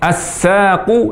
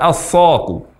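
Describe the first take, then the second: First: The s sound is light and thin. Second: The s sound is heavy and emphatic. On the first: The speaker calls it right. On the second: The speaker calls it wrong.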